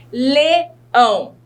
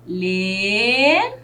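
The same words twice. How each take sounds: First: Said in the usual way. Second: "Leão" split into two drawn-out syllables with a long gap; teacher slowly separating the syllables of "Leão". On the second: Shown as a demonstration. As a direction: stretch "Le", pause, then "ão". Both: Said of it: "Quantas sílabas eu tenho nessa palavra".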